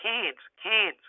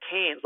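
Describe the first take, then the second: First: "Cairns" said nasally through a pinched nose, like "cans"; pinching nose. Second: "Cairns" said slowly, like "cans" with no r; Cairns pronounced. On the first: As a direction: hold your nose and say "Cairns, Cairns". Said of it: "hold your nose and go". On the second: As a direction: say "Cairns" to rhyme with beer can. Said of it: "it's pronounced Cairns, like a beer can". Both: Shown as a demonstration.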